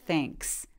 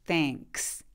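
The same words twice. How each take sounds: No difference in how they are said.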